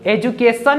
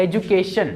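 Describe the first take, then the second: First: "एजुकेशन" with a plain s, ending -san; wrong pronunciation. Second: "एजुकेशन" with a sh sound, ending -shan; correct pronunciation. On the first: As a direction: say "एजुकेशन" with s in place of sh. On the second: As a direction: say "एजुकेशन" with soft sh before the final n. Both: Shown as a demonstration. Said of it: "नहीं बोलना है".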